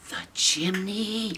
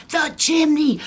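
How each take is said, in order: First: Soft slow dawning gasp; hushed realization. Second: High loud alarmed shout; alarmed cry. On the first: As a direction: breathe it as you realize. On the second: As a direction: blurt it out in panic. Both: Acted. Realization repeated.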